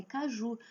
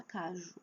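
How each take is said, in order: First: "caju" as ca-JU; stress on last syllable. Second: "caju" as CA-ju, ending soft and weak; wrong stress on first syllable. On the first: Teacher corrects the mistake, "caju" stressed on final JU. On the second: Teacher shows the mistake, "caju" stressed on CA. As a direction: drop the JU of "caju" away. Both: Shown as a demonstration. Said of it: "Eu não preciso falar caju".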